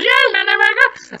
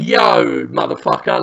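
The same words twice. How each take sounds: First: Very high, squeaky sped-up tape voice; fast-forwarded recording. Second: Said in the usual way. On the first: Retold or imitated. Partygoer's talk boy played back, squeaky fast-forward. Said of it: "he does it fast forwards". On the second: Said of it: "he's recording his voice saying".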